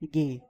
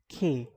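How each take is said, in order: First: It begins with a hard g sound. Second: It begins with a harsh throaty sound. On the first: The speaker calls it wrong. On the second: The speaker calls it right. "It is pronounced as K"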